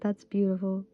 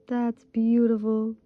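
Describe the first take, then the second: First: Said in the usual way. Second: Slow, drawn-out admiring; That's beautiful said slowly with admiration; savoured. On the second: Real, not acted. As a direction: linger on beautiful in awe. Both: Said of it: "repeats with more feeling".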